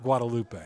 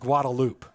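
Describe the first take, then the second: First: It is pronounced the common outsider way. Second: It is pronounced the local Austin way. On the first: The speaker calls it wrong. "not Guadalupe" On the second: The speaker calls it right. "The road is Guadalupe"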